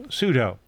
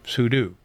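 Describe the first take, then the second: First: Sudo rhymes with judo; sudo as soo-doh. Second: Sudo ends like "do"; sudo as soo-doo. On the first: Telling users what to enable, sudo said soo-doh. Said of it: "compare it to judo". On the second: Offering the alternative name, sudo said soo-doo. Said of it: "short for super user do". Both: Shown as a demonstration.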